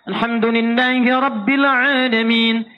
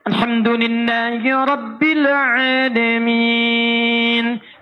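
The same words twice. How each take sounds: First: The stretched vowels are held very briefly. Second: The stretched vowels are held moderately long. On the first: "Dua harakat" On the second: "Anda jadikan empat"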